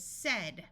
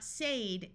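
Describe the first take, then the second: First: "said" said like "sed"; "said" rhyming with "bed"; short E in "said". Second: "said" said like "sayed"; "said" rhyming with "paid"; long A in "said". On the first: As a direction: give "said" an eh vowel. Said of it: "with a short E sound". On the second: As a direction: give "said" an ay vowel. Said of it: "This is not said". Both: Shown as a demonstration.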